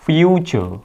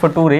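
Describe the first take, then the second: First: The middle consonant is a ch sound. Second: The middle consonant is a plain t sound. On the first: The speaker calls it right. "ये इसकी correct pronunciation होती है" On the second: The speaker calls it wrong. "इसको कुछ लोग फटूरे भी बोल देते हैं, तो दिस इज नॉट फटूरे"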